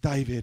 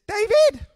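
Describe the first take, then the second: First: Said in the speaker's own plain voice. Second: Said in an imitation of someone else's voice. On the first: The speaker calls it wrong. "she didn't sound like that" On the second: The speaker calls it right. "She sounded like this"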